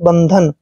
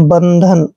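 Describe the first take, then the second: The two takes are said the same way.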